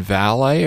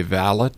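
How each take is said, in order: First: Valet as val-AY, silent t; French-style valet. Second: Valet as VAL-it, t sounded; English-style valet. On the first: Host asks about his title, valet pronounced val-AY. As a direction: say valet ending in an "ay" sound. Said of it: "or as the English say". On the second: Host offers the English version, valet pronounced VAL-it. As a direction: say valet the English way, rhyming with mallet. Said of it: "as the English say". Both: Shown as a demonstration.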